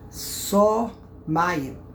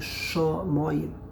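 First: The word begins with an 's' sound. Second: The word begins with a 'sh' sound. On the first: A place that carries water. "don't pronounce the shin with the dat on the right. Put the dot on the left" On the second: The plain word for heaven. "The pronunciation is clearly shomoyim"

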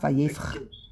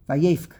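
First: The word ends with a raspy ch sound. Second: The word ends with a hard k sound. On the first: The speaker calls it wrong. "Not vayefk" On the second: The speaker calls it right. "Vayefk with a k"

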